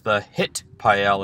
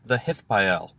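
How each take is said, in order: First: The tav is pronounced as a hard t sound. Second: The tav is pronounced as a soft th sound. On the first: "we can simply call this the Hitpael as well" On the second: "We say hith with a th"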